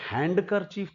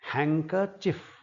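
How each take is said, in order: First: A d sound is pronounced after the n. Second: No d sound is pronounced after the n. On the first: The speaker calls it wrong. "हैंडकरचीफ तो बिल्कुल नहीं है, इसमें ड" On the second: The speaker calls it right. "ड नहीं बोला जाएगा"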